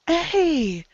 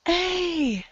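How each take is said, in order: Both takes have the same delivery.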